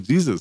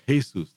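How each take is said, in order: First: The name is pronounced the English way. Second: The name is pronounced the Spanish way. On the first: This is the form English speakers avoid for a person. "They don't say Jesus" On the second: This is the form English speakers use for a person. "they say Jesus"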